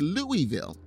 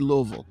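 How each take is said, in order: First: The city name is said the outsider way. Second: The city name is said the local way. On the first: The speaker is not from the city. The speaker calls it wrong. "For people that are not from Louisville, they'll say Louisville" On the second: The speaker is from the city. The speaker calls it right. "for those that are from there, they say Louisville"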